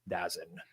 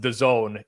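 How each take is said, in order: First: It is said as one word, 'Dazin'. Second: It is said as two words, 'the Zone'. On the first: "called it Dazin" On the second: "but pronounced the Zone"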